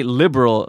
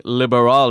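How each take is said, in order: First: Said in the usual way. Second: "liberal" loud with the stress shifted onto the last syllable; wrong pitch accent. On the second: Shown as a demonstration. Teacher showing learners what nobody understands, misplaced accent. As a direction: lean loudly on the end of "liberal". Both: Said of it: "a completely different pitch accent".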